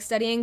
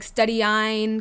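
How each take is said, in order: First: The ending sounds like the ordinary word studying. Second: The ending rhymes with the word design. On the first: This is the owner's own pronunciation. "I just pronounce it like studying" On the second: Other people say it this way. "kind of like design"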